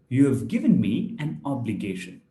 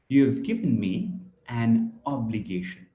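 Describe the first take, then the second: First: Both words 'you have' are said in full. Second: 'You have' is shortened to one syllable 'you've'. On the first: "Instead of you have" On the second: "we are saying you've"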